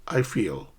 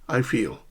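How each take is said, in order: Both takes have the same delivery.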